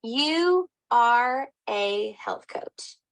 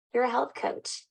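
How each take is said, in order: First: You are a health coach spelled out slowly, every word weighted; earnest slow stress; slow emphatic. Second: Said in the usual way. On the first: Real, not acted. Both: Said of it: "I mean, seriously".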